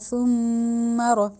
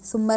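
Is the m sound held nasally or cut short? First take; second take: held nasally; cut short. First: The m sound is held through the nose. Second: The m sound is cut short quickly. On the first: The speaker calls it right. "इसमें भी हमने नाक में लेके जानी है sound" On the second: The speaker calls it wrong. "तेज से नहीं पढ़ना"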